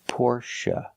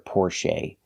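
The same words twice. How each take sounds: First: The last syllable ends with a relaxed 'uh' sound. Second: The last syllable ends with a long 'ay' sound. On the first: The speaker calls it right. "the last syllable is pronounced uh, like cup and up" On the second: The speaker calls it wrong. "You will never hear the long A sound for the last syllable"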